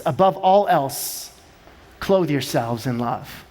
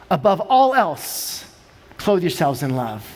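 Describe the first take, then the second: First: Hushed scripture quote; solemn scripture reading. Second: Slow, dropping low on clothe yourselves in love; hushed scripture repeat; solemn scripture reading. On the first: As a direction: read the verse with reverence. Scripture quote read slowly. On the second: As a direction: repeat the verse reverently. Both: Real, not acted.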